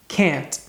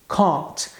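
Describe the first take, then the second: First: The vowel leans toward a short front 'e' sound. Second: The vowel is an open, back 'ah' sound. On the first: "no inglês americano ... na forma negativa fica can't" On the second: "Escute novamente a pronúncia no inglês britânico"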